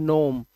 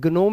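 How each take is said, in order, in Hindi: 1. शब्द सीधे n ध्वनि से शुरू होता है। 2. शब्द कड़ी g ध्वनि से शुरू होता है। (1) "इसको बोलते हैं सिर्फ नोम" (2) "आप इसे ग्नोम ही पढ़ेंगे"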